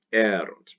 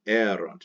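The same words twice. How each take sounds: First: Erunt with the weight on the first syllable E; stress on erunt. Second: Erunt again, accent on E; stress on erunt. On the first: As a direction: stress "erunt" on its opening E, then let it fall. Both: Shown as a demonstration. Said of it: "the accent will always fall on that E".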